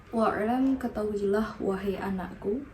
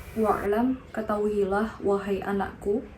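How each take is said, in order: No difference in how they are said.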